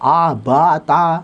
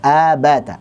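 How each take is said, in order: First: The vowels are said with the mouth opened very wide. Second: The vowels are said with the mouth opened normally. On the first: The speaker calls it wrong. "misalkan tiga jari atau empat jari, ... ini salah" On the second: The speaker calls it right. "Biasa saja"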